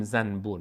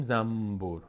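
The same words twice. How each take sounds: First: زنبور with a clear n before b, zan-bur; n kept as written. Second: زنبور said zambur, with a lengthened m; n turned to m. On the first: Teacher showing what nobody says, zan-bur with clear n. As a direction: say زنبور as spelt, tongue-tip n then b. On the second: Teacher showing the usual Persian way, slow zambur with m. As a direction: close the lips early in زنبور, humming m before b. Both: Shown as a demonstration.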